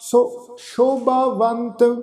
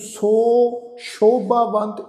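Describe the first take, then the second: First: The first word's vowel is short and light. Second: The first word's vowel is long and drawn out. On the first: The speaker calls it right. "बस हल्का जो उच्चारण होगा जी" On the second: The speaker calls it wrong. "इनू सो शोभावंत इस ढंग नाल उच्चारण नहीं करना"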